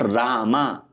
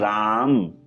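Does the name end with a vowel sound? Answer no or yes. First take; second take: yes; no. First: The name ends with an 'a' vowel. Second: The name ends on the consonant 'm'. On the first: The speaker calls it wrong. "But it is not Rama" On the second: The speaker calls it right. "It is Ram"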